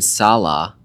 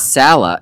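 First: It does not sound like salad minus D. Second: It sounds like salad minus the D. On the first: The speaker calls it wrong. "I've been saying Salah" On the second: The speaker calls it right. "It's like salad without the D"

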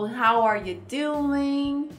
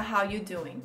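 First: The word 'are' is clearly pronounced. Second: The word 'are' is dropped entirely. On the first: "Ou How are you doing?" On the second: "Se você for falar mais rápido e for encurtar, fica How you doing"

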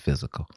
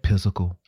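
First: The word begins with an F sound. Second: The word begins with a P sound. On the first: The speaker calls it right. "When PH makes the F sound, that's physical" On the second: The speaker calls it wrong. "you guys said physical. It's not physical"

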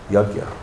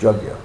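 First: The word begins with a Y sound. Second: The word begins with a J sound. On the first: The speaker calls it right. "but it's a Yagya" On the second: The speaker calls it wrong. "I kind of picked up on calling it a Jagya"

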